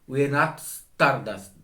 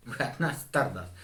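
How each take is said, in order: First: Said in the usual way. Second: Said through a laugh, softer and quick; chuckling, faster and softer. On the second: Real, not acted. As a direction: laugh it off as you repeat it. Repeats his claim, laughing.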